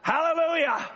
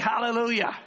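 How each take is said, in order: First: The word is said louder than before. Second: The word is said at normal loudness. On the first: The crowd answers the second call with more excitement. "they say it louder" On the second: The crowd answers the first call. "they say hallelujah"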